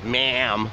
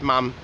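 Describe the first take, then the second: First: The vowel is a harder, flatter A sound. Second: The vowel is a softer, open A sound. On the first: "like we do" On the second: "it's kind of like a softer A"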